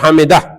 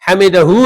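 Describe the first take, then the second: First: The word ends without the final vowel. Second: The word ends with a final u vowel. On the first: This is how it is said when stopping. "तो जब वक्फ करेगा तो हमिदह" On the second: This is the full form of the word. "हमिदहू है ना पूरा"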